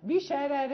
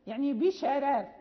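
First: بشرار said with thinned first r, pausing on the end; thin r in pause. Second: بشرار with both r sounds thinned, light; thin r demo. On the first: Teacher to class: pausal form of بشرار. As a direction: stop on بشرار keeping the first r light. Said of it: "حين". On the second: Teacher to students: demonstrating بشرار with thinned r. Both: Shown as a demonstration.

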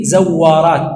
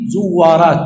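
First: زوارات with a "zaw" first syllable, drawn out slowly; fatha on the zay. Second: زوارات with a "zu" first syllable, drawn out slowly; damma on the zay. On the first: Teacher showing students the other reading, زوارات said zawwaraat. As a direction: say زوارات as zawwaraat, short a after the z. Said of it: "وفيه بفتح ماذا؟ الزاي". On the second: Teacher showing students one reading, زوارات said zuwwaraat. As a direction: say زوارات as zuwwaraat, short u after the z. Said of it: "فيه بضم ماذا؟ الزاي". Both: Shown as a demonstration.

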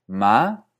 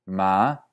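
First: Ma rising from a higher start. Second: Ma rising from a lower start. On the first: Teacher showing a higher variant of the rising tone. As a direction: push ma up from a high start. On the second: Teacher showing a lower variant of the rising tone. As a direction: lift ma up from a low start. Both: Shown as a demonstration. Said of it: "más bajos o más altos".

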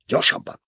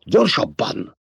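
First: Breathless, voiceless hurry-up order; urgent whispered command. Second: Higher, gasped out mid-run; panting. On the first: Paul urging his mother up the dune, whispered. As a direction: push her on in a rushed whisper. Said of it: "parancsolta Paul". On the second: Paul urging his mother on as the worm nears, panting. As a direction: pant the word while running. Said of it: "lihegte Paul". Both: A narrator's reading.

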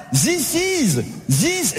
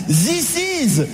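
First: "This" said "zis", z instead of th; mocking French z. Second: "This is" said as "zis iz", th turned into z; French "zis" for this. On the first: Comedian repeats the French zis to mock it, buzzed z. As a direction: land on the z in "This". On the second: Retold or imitated. Comedian mocks the French th in "This is", zis iz. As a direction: say "This" with a buzzing z, "zis iz". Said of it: "il est où le Z là-dedans?".

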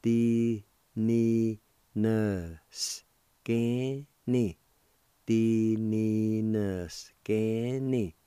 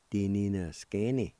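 First: Very slow, drawn-out syllables; teacher slowly modeling Di ni na scanny; slow demo. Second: Said in the usual way. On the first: Shown as a demonstration. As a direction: draw out Di ni na scanny for learners. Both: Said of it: "it's pronounced like this".

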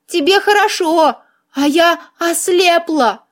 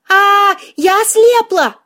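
First: Mildly hammed-up self-pity, voiced rather than whispered; tragic. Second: High, slow wail of horror; panicked yell. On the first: Heroine mourns her sight to the man, tragically. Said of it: "трагически прошептала я". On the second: Heroine believes she has gone blind, yelling in panic. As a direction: cry out in drawn-out panic. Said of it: "прекрати орать". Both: A narrator's reading.

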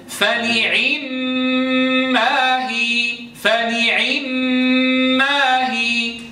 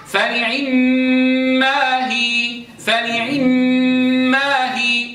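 First: فنعم ما هي with a full kasra on the ain, slowly chanted. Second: فنعم ما هي with the kasra cut short and dropped in volume; snatched kasra. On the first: Teacher chanting Hafs's full kasra. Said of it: "إذا أردت أن آتي بكسرة تامة". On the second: Teacher chanting the snatched kasra of Abu Amr. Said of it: "انظروا انخفض الصوت". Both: Shown as a demonstration.

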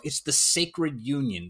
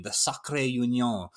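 First: Said in the usual way. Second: Sacré said the French way, as sah-cray; French pronunciation. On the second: Shown as a demonstration. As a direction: give sacré union a French sound.

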